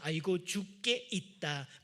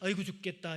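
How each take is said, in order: First: The phrase is said slowly with each syllable clear. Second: The phrase is said quickly with syllables run together. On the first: Our life and death are in God's hands. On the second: Others hear it as an ordinary complaint.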